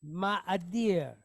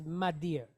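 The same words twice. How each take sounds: First: Ma'adir with the a doubled, ma-a-dir; separate syllables. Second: Madir run together in two syllables, ma-dir; Israeli pronunciation. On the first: Teacher sounds out ma'adir for students, syllable by syllable. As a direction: say ma'adir as ma-ah-dir, both a sounds kept apart. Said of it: "so we have". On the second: Teacher shows students the Israeli way, madir clipped short. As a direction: drop the doubled a and say madir quickly. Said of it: "in an Israeli fashion". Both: Shown as a demonstration.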